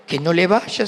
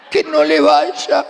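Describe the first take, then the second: First: Said in the usual way. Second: Higher, slow, laughing "que no le vaya"; laughing plea. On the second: Retold or imitated. Praying the shoes won't fit, laughing plea. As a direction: plead again, stretching it out through a laugh. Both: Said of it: "yo lo miraba y decía".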